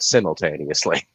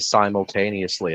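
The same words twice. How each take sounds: First: It is said the British way. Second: It is said the non-British way. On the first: "the Brits say it simultaneously" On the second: "how I always used to say simultaneously"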